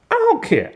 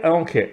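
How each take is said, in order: First: Jumps up high, brushing it off; a high-pitched shrug off; exasperated I don't care. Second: Said in the usual way. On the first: Real, not acted. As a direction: toss it away high and fed up. Dismissing criticism of the dialogue.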